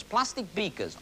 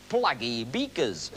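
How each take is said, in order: First: Said in the usual way. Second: Plaggy beakers slow in a northern accent. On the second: Shown as a demonstration. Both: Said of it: "as they say in the north".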